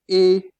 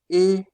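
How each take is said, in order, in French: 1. La voyelle est fermée, comme dans été. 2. La voyelle est fermée, comme dans été.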